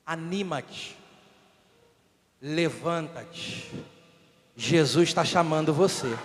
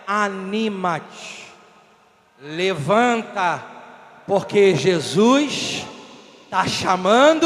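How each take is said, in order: First: Hushed, measured reassurance; gentle encouragement. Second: Slow, low-pitched, building in volume; firm, deliberate call to rise; emphatic encouragement. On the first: Acts crowd encouraging the blind man. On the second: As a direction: draw out each phrase and swell toward the end. Repeats encouragement with more force. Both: Acted.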